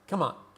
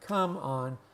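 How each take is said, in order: First: The phrase is said quickly and run together. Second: The phrase is said slowly and deliberately. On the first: "most of us say" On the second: "if we speak slowly for emphasis"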